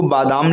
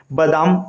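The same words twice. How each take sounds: First: बादाम said as "baadaam", long first aa; correct long vowel. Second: बादाम said as "badaam", short first a; wrong short vowel. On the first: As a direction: lengthen the start of बादाम to "baa". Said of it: "इसको बादाम लिखा जाता है". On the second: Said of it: "ये गलत है". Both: Shown as a demonstration.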